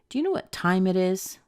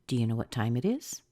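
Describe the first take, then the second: First: The pitch drops at the end. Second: The pitch rises at the end. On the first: It is a statement that we are probably late. "hear a little drop at the end" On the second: It is a genuine yes-no question. "you will hear a rise at the end"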